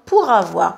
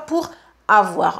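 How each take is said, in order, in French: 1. Le R se lie directement à avoir sans s'arrêter. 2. La voix s'arrête brièvement entre pour et avoir. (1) "Marquez la liaison" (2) "pas pour avoir. On ne s'arrête pas"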